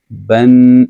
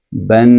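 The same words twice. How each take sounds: First: بن said as "ban" with the written noon, sounding the same as the tanween; demo of noon sakin. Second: بن said as "ban", با with double zabar ending in a clear n; demo of tanween. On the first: Teacher proving to students noon sakin equals tanween, بن "ban". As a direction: say بن "ban" from the noon spelling, matching the other. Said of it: "پھر آپ کہتے ہیں با، نون زبر". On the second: Teacher showing students the tanween sound, clear بن "ban". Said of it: "آپ کہتے ہیں با، دو زبر". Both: Shown as a demonstration.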